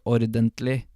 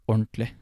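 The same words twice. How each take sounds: First: Every syllable of the word is said in full. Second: The word is shortened, its middle collapsed together. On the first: The speaker calls it wrong. "You don't say ordentlig, although you could" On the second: The speaker calls it right. "it's kind of like collapsed on itself"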